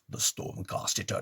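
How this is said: It is read in a rough, growly voice.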